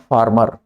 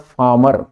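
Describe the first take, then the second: First: The r after the vowel is pronounced. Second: The r after the vowel is silent. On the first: The speaker calls it wrong. "Not फार्मर" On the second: The speaker calls it right. "इसका actual जो accent है वो है फार्मर"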